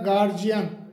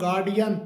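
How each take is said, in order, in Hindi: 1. बीच का व्यंजन 'j' की ध्वनि है। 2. बीच का व्यंजन 'd' की ध्वनि है। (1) "जिसे सामान्यतः गार्जियन, गार्जियन के रूप में बोला जाता है" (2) "इसका सही जो प्रोनाउंसिएशन होता है वो गार्डियन"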